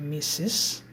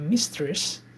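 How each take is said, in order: First: The word is said without a t sound. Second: The word is said with a t sound. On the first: It is the title for a married woman. The speaker calls it right. "huruf T-nya ini silent" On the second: It carries a different, bad meaning. The speaker calls it wrong. "kalau kita bacanya mistress itu meaningnya lain"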